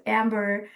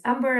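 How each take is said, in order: First: Amber said the anglicized way; others' mispronunciation. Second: Amber said the speaker's own way; own name pronunciation. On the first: Retold or imitated. Speaker showing what people always call her, anglicized Amber. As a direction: say Amber as others miscall it, with English vowels. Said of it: "I'm always called". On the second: Shown as a demonstration. Speaker introducing herself by name, own pronunciation of Amber. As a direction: say Amber as your own name, not the anglicized way. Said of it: "it also privileges accents and pronunciations".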